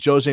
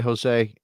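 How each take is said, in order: First: Jose is said with a Portuguese pronunciation. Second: Jose is said with a Spanish pronunciation. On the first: The speaker calls it right. "in Portugal they do it weird. So you got to say Jose Mourinho" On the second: The speaker calls it wrong. "in Spanish we would say Jose"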